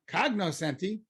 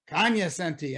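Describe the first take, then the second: First: It begins with a 'cog-no' sound. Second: It begins with a 'kon-ya' sound. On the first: This is how outsiders say it. The speaker calls it wrong. "and not cognoscenti" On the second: This is how people in the know say it. The speaker calls it right. "the Kanyasenti say Kanyasenti"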